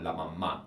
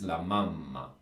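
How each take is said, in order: First: The stress is on the last syllable. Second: The stress is on the first syllable. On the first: The speaker calls it wrong. "It's not la mamma, which is, I think, a pretty common mis- mistake from learners" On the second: The speaker calls it right. "but it's la mamma"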